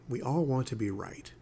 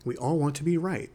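First: "right" left hanging in silence to make them think; pause after RIGHT. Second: Higher, firmer "We all want to be right"; emphatic restatement. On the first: Podcaster lets listeners think about being right, pausing after "right". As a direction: let "right" land, then hold a long pause. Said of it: "See that little pause there?". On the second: Podcaster restates the point after his pause, emphatically stressing "all". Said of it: "It makes you think". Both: Shown as a demonstration.

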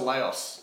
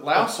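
First: "Laos" with an open "ah", lah-oss; alternative pronunciation. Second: "Laos" as one syllable rhyming with "house"; trying a pronunciation. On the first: Quizmaster checking the country's name, saying "Laos" as "lah-oss". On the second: Quizmaster unsure of the country's name, saying "Laos" like "louse". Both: Shown as a demonstration. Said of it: "Is it Laos or Laos?".

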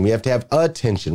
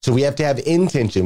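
First: "attention" with its first syllable picked out; stress on A-ttention. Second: "intention" with its first syllable picked out; stress on IN-tention. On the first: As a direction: lean on the "a" of "attention". Contrasts attention with intention. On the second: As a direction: lean on the "in" of "intention". Contrasts intention with attention. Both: Shown as a demonstration.

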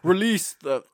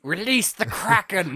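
First: Put-on high, loud try at a British accent that breaks off; a failed British accent attempt; started grand in British, then gave up. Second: High, loud, slow dramatic command; theatrical cry to unleash a sea monster; movie villain shout. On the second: Pretend. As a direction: bellow it like an epic movie villain. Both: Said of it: "I can't do a British accent".

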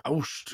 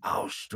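First: "Aust" voiced, with a rounder "oh" onset; alternative imitated pronunciation. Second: "Aust" whispered, with an open "ow" vowel; imitated foreign word. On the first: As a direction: say "Aust" more like "ohst", as a second guess. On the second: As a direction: breathe out "Aust" as "owst", imitating the spirit. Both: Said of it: "or something like that".

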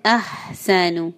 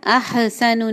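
First: Slow अहसनु with a smooth ha; slow correct. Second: अहसनु with a bounced ha; wrong bounce. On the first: Teacher models the correct word slowly. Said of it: "नहीं है". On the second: Teacher imitating the wrong bounce. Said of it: "अहसनु नहीं है". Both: Shown as a demonstration.

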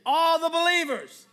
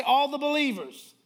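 First: High, loud rallying call; full-voiced preacher leading the congregation; like you mean it. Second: Said in the usual way. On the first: Shown as a demonstration. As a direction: belt it out with conviction. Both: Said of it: "say it like you mean it".

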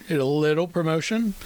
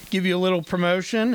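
First: Deliberate emphasis on "little"; stress on LITTLE. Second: Said in the usual way. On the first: Shown as a demonstration. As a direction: lean on the word "little". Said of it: "I would like to emphasize that word". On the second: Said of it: "when I say little".

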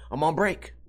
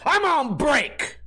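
First: Said in the usual way. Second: High, slow, drawn-out brush-off; curt dismissal. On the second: Retold or imitated. Cashier refusing to scan a customer's ID, slow high brush-off. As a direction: stretch it out like you couldn't care less.

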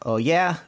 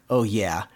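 First: Higher, challenging retort; mock-indignant challenge; mild retold yell. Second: Level, deadpan parroting; lightly imitated comeback; spring's echo. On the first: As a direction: dare it with a lifted pitch. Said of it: "Donald kinda yelling at the spring". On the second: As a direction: echo it back in monotone. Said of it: "the echo of his voice".

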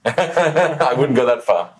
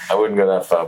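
First: Laughing. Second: Said in the usual way. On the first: Real, not acted. Laughs off compliment.

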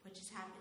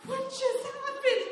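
First: Softer, stunned and barely audible; dazed hush. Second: Much higher, slow and laughing; laughing disbelief. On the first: Driver dazed after flipping car, stunned murmur. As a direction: mutter it in shock after the crash. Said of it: "I'm sitting there like". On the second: Covered in mud after crash, high laughing disbelief. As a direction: squeal it through laughter in disbelief. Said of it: "And I was like". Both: Retold or imitated.

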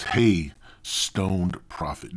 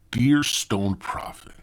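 First: Said in the usual way. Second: "Dear" drawn out and stressed, then falling away. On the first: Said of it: "matter of fact, it said". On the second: Retold or imitated. Podcaster correcting how the email opened, stress on "Dear". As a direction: lean on "Dear" as the corrected word. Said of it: "it said, "Dear Stoned Prophet".

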